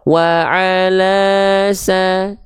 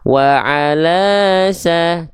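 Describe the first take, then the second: First: The pitch stays level over the vowel. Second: The pitch swings up and down over the vowel.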